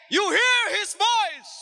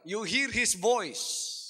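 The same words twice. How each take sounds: First: Higher, louder, slow shouted repeat; full-force preacher's shout of the same line; preaching shout. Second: Said in the usual way. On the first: Shown as a demonstration. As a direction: bring it home with a shout.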